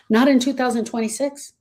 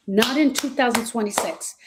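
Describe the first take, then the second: First: Not in two thousand twenty-six with a rising tune; in ends on a rise; rising emphasis. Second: Said in the usual way. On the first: Shown as a demonstration. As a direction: make it a challenge.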